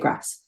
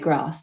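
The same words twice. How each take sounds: First: Grass is said with a North American vowel. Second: Grass is said with a London vowel. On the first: "like in America or Canada" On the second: "like they would do in London"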